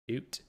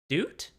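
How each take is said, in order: First: It is said in a cool, laid-back voice. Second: It is said in a pondering, thoughtful voice. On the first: "sunglasses doot is like a cool doot" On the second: "Thinking doot would be doot?"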